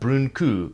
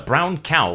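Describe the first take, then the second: First: The vowels are pronounced like oo. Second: The vowels are pronounced like ow. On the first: "is a brún cú in Scots" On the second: "a brown cow in English"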